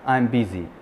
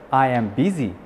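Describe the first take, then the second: First: I am is contracted into one syllable. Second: I am is said as two full words. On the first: "он скажет I'm busy" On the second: "вместо I am busy"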